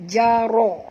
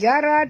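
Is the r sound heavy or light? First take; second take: heavy; light. First: The r sound is heavy and thick. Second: The r sound is light and thin. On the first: The speaker calls it right. "Ra' ra' tebal" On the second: The speaker calls it wrong. "Bukan jara"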